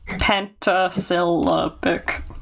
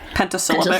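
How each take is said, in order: First: It is said slowly. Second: It is said at normal speed.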